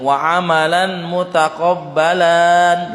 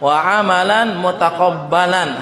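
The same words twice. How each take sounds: First: A vowel in mutaqabbalan is drawn out long. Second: The vowel stays short and the b is doubled. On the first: The speaker calls it wrong. "kesalahan kalau membaca ini ini panjang ... lan khata" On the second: The speaker calls it right. "Harus ada tasydid di situ"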